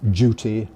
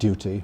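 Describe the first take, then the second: First: It begins with a j sound. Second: It begins with a dy sound. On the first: This is the newer, increasingly acceptable form. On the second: This is the older standard form.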